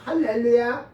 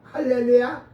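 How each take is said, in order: The two takes are said the same way.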